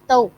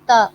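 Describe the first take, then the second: First: The vowel glides from 'a' into 'oo'. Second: The vowel is a plain long 'ah' sound. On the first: The speaker calls it right. "It's तऊ" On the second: The speaker calls it wrong. "It's not ता"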